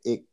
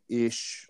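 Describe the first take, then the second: First: The word ends in a hard sound. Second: The word ends in a soft sound. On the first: "they would just say ich. It was, mm-hmm. Harder" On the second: "instead of saying ish or ich"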